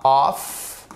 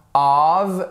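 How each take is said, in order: First: "of" said "off", ending in f; wrong unvoiced ending. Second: "of" said "ov", ending in v; correct voiced ending. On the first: Teacher shows what to avoid, "of" ending in f. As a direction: harden "of" into "off". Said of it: "c'est pas of". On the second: Teacher models the particle, "of" ending in v. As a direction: voice the final sound of "of" as v. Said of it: "c'est comme ça, c'est pas of". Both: Shown as a demonstration.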